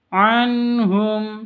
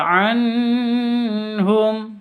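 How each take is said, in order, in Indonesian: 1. Bunyi n tegas, tanpa dengung sengau. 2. Bunyi n dipanjangkan dengan dengung sengau. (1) "cara bacanya jelas, terang, tidak boleh dengung" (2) "tidak boleh dibaca anhum, salah"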